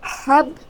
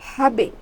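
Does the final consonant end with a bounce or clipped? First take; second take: clipped; bounce. First: The final consonant stops dead without any echo. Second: The final consonant is released with an echoing bounce. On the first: The speaker calls it wrong. "এখানে কিন্তু হাব বলা যাবে না" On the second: The speaker calls it right. "এখানে বলতে হবে হাবে"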